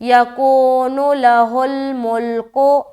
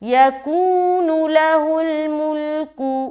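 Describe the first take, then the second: First: The final vowel sounds like 'o'. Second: The final vowel sounds like 'u'. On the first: The speaker calls it wrong. "ऐसा नहीं पढ़ना" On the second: The speaker calls it right. "बल्कि कू नू ऐसा पढ़ना है"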